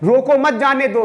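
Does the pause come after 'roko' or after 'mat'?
after roko. The pause comes right after 'roko'.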